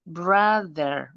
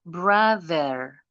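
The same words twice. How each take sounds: The two takes are said the same way.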